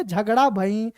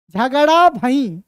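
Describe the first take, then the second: First: A hint of an old man's nasal voice on 'झगड़ा भई'; nasal elder mumbling 'झगड़ा भई'. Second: Said in the usual way. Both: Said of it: "नाक में बोले".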